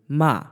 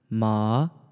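First: The pitch falls sharply from high to low. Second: The pitch rises from middle to high. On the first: "the fourth tone basically goes from high to low" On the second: "Second tone"

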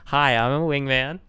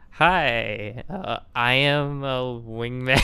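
First: It is said seriously, without laughing. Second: It is said with a laugh, not seriously.

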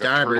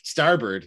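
First: It is said in an old fisherman's voice. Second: It is said in his normal voice.

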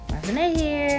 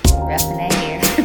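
First: It is said with lively energy. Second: It is said with low energy.

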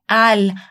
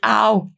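First: The final L is a clear tongue-tip L. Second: The final L becomes a vowel-like 'ow' sound. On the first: The speaker calls it right. "é al. A língua sobe lá no céu da boca" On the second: The speaker calls it wrong. "Nada de ao"

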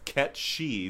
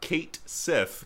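First: The name is said as 'Ket She'. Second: The name is said as 'Kate Sith'. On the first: The speaker calls it right. "it should be pronounced Ket She" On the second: The speaker calls it wrong. "I have heard that's completely wrong"

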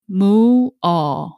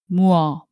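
First: The two vowels are said slowly and separately. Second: The two vowels are said quickly as one sound. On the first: "It's a double vowel word with u and a, so it's mu-a" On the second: "But you should say this fast, like mua"

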